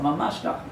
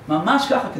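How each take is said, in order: First: Said in the usual way. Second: "Mamash" said higher, with a falling tune; emphatic repeat. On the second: Shown as a demonstration. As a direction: stress "Mamash", then let it fall.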